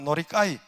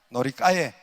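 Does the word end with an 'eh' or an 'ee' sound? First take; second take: ee; eh. First: The word ends with an 'ee' sound. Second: The word ends with an 'eh' sound. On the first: This is the older Korean borrowed form. The speaker calls it wrong. "예전에 우리 어릴 때는 노리까이 많이 단어를 사용했었어요" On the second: This is the accurate Japanese form. The speaker calls it right. "정확한 발음은 노리까에"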